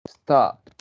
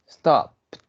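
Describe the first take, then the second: Both takes have the same delivery.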